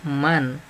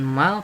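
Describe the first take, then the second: First: The word ends in a clear n sound. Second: The word ends in an l sound. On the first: The speaker calls it right. "dibacanya jelas, yaitu man" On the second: The speaker calls it wrong. "bukan mal"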